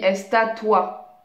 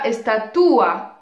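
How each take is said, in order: First: The final two vowels glide together in one syllable. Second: The final two vowels are split into separate syllables. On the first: The speaker calls it right. "je dis estatua" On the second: The speaker calls it wrong. "Je dis pas estatua"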